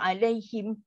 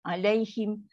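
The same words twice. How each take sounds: Both takes have the same delivery.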